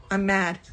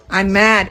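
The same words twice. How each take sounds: First: Quiet admission. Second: I'm mad said out loud and firm; louder declaration. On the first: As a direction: murmur I'm mad under the breath. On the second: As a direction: state I'm mad plainly, stronger. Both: Real, not acted.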